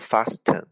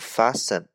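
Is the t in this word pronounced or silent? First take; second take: pronounced; silent. First: The t sound is pronounced. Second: The t sound is silent. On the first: The speaker calls it wrong. "不读fasten" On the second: The speaker calls it right. "它的发音读fasten"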